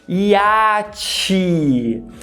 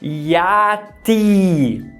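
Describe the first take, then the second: First: The t before the final i is palatalized. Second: The t before the final i is plain.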